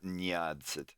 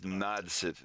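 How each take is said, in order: First: The syllable begins with a softened 'nya' sound. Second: The syllable begins with a plain 'na' sound. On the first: The speaker calls it wrong. "not nyadzit" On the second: The speaker calls it right. "it's nadzit"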